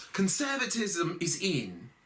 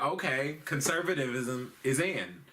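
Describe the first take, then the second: First: "Conservatism is in" in a high British accent. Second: Said in the usual way. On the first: Shown as a demonstration. Comic redoes Theresa May's line in a British accent. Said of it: "we gotta be British". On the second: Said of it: "Hold on, we gotta be British".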